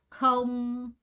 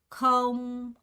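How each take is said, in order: No difference in how they are said.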